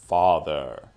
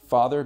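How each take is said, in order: First: It is said in a deep, imitated character voice. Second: It is said in an ordinary speaking voice.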